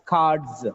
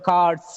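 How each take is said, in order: First: The word ends with a buzzing z sound. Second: The word ends with a hissing s sound. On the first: The speaker calls it right. "It is cards" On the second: The speaker calls it wrong. "It's not cards"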